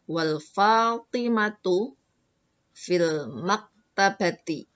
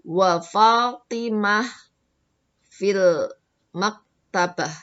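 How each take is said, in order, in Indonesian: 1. Kata bendanya berakhir dengan harakat vokal penuh. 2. Kata bendanya berakhir dengan bunyi h yang terhenti. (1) "kalau mau diberi harokat" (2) "kalau mau diwakafkan belakangnya jadi Fatimah sama maktabah"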